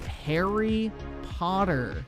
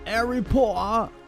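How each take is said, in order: First: It is said in a plain American accent. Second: It is said in a mock British accent. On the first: The speaker calls it right. "How do you take Harry Potter" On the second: The speaker calls it wrong. "and arrive at Harry Potter?"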